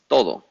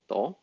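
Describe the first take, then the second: First: The word is said with both syllables. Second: The word is cut to one syllable. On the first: "the next one is todo" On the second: "Sometimes we say todo, to"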